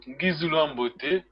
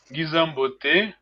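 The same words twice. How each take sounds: First: Ngizulu Ambote as two separate words; full form. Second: Ngizambote run together as one word, slowly; slow Ngizambote with the "-ulu" dropped; contracted form. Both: Shown as a demonstration. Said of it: "You can, you could say".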